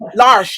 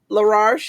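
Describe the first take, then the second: First: The name has two syllables with no extra r. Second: The name has three syllables with an extra r. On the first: The speaker calls it right. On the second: The speaker calls it wrong.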